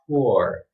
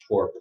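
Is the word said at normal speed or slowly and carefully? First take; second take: slowly; normal speed. First: The word is said slowly and very clearly. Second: The word is said quickly and casually. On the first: "if you are speaking very, very uh, clearly, very slowly, it would be" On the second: "more like this"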